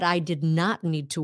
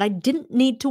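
First: Did not is said as two full words. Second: Did not is contracted into one short word. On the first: The speaker calls it wrong. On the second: The speaker calls it right.

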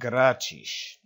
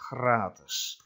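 First: The word is said with a Portuguese accent. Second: The word is said with a Dutch accent. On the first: "That's the Portuguese accent" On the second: "In Dutch, it's gratis"

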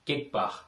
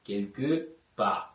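First: The first word shrinks to one short syllable. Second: The first word keeps both its syllables. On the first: This is casual everyday speech. "பேச்சு வழக்கில் ... வேகமாக உச்சரிப்போம்" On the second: This is the careful written form. "பிரெஞ்சில் வந்து எழுதும் பொழுது கெல்கு பா எழுதுவோம்"

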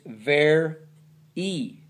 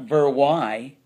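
First: The word ends with an 'ee' sound. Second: The word ends with an 'eye' sound. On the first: The speaker calls it right. "it's ver e" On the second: The speaker calls it wrong. "It's not ver y"

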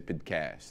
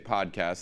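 First: The first syllable is swallowed and barely heard. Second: The first syllable is said fully and clearly. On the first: This is how those particular people say it. "they would say podcast. ... bury the first syllable" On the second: This is the ordinary way of saying it. "they wouldn't say podcast"

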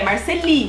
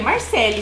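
First: The name ends in an 'ee' vowel. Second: The name ends in an 'eh' vowel. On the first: This is how most people read the name. The speaker calls it wrong. "todo mundo lê Marceli" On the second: This is how the owner says the name. The speaker calls it right. "Mas eu falo que é Marcele"

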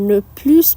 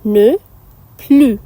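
First: The second word ends with an s sound. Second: The second word ends without an s sound. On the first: The speaker calls it wrong. "এটাকে কেউ নে প্লাস বা নে প্লুস বলবেন না" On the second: The speaker calls it right. "নে প্লু আর নেই"

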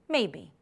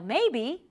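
First: The word sounds hesitant and reluctant. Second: The word sounds open and hopeful. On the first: The answer is really no. "meaning maybe not" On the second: The answer might well be yes. "meaning maybe, yes"

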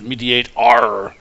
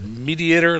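First: The ending is a drawn-out pirate-like 'arr'. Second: The ending sounds like the ordinary word mediator. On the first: It is a playful pirate-style reading. "like a pirate would say" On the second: It names the design pattern. "like the pattern"

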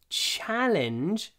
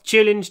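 First: The vowel is said with the mouth wide open. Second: The vowel is said with the mouth nearly closed. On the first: It sounds like the English word. The speaker calls it right. "I open my mouth" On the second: It sounds like the Russian word. The speaker calls it wrong. "I don't open my mouth"

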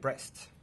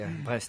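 First: The name is said with an English accent. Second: The name is said with a French accent. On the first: The speaker calls it wrong. "I said it with an English accent" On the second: The speaker calls it right. "That would be Brest"

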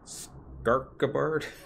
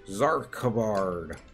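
First: The name does not begin with a z sound. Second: The name begins with a z sound. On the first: "the other way to say it" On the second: "I'm saying it like it was the letter Z"

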